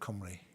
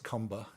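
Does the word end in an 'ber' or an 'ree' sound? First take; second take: ree; ber. First: The word ends with a 'ree' sound. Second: The word ends with a 'ber' sound. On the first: The native Welsh rendering of the word. The speaker calls it right. "instead of Cymru" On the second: An English speaker's rendering of the word. The speaker calls it wrong. "they mispronounced it as Comber"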